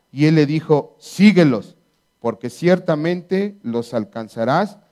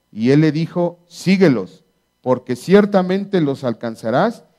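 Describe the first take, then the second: The two takes are said the same way.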